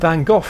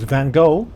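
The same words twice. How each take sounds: First: The name is said the British way, ending in F. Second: The name is said the American way, without F. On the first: "for British ears. For some reason the name in the U K seems to end in a double F sound" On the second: "U S viewers might know him as"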